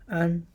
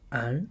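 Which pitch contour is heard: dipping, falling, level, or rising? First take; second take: level; rising. First: The pitch stays high and level. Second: The pitch rises from middle to high.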